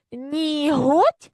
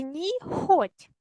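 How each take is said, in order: First: "Ніготь" stretched out, г clearly voiced. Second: "ніхоть" stretched out, kh in the middle; voiceless kh. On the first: Teacher offers pupils the first spelling choice, voiced h. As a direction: say "Ніготь" very slowly with a voiced Ukrainian h. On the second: Teacher offers pupils the wrong spelling choice, voiceless kh. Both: Shown as a demonstration. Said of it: "вставивши правильні букви".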